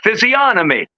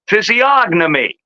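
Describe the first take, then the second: First: The word is said without a G sound. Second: The word is said with a G sound. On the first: This is the usual British pronunciation. "In the U K, it is most often pronounced physiognomy without the G sound" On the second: This is the usual American pronunciation. "But here we mostly say physiognomy"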